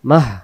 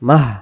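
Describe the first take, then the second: The two takes are said the same way.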